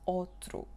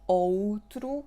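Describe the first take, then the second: First: Its unstressed vowel is reduced. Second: All its vowels are said fully. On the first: The speaker calls it right. "it's reduced, it's outro" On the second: The speaker calls it wrong. "there is no outro"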